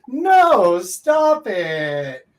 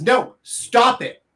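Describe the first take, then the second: First: Louder, sharp serious no; mean it, shut it down; stern, loud refusal; firm loud no. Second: Higher, slow teasing no stop it; coy, playful refusal. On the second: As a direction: say it flirty and slow. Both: Shown as a demonstration. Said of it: "polar opposites".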